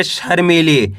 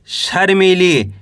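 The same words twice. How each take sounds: First: Said in the usual way. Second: Slow reading. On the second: Shown as a demonstration. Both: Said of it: "कैसे पढ़ेंगे?".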